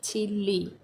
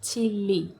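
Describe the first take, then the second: No difference in how they are said.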